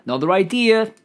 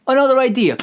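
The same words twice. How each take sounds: First: Said in the usual way. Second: Another idea, higher and louder; louder excited repeat. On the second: Shown as a demonstration. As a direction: burst out with the idea.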